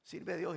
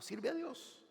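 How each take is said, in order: First: Said in the usual way. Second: Much higher, ringing command; exhorting command. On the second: Acted. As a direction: call it out to the whole church. Preacher repeats command. (orden exclamada, mucho más aguda)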